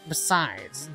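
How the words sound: It is said in a put-on nerdy voice.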